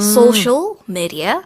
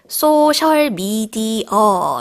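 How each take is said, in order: First: It is said with native English sounds and rhythm. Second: It is said with Korean-style syllables and sounds. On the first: The speaker calls it right. "몰라요" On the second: The speaker calls it wrong. "이렇게 발음을 하지"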